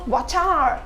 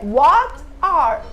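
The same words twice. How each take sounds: First: The two words run together as one. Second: The two words are said separately. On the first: "Mas juntos tem o som do What are?" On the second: "Às vezes é What are?"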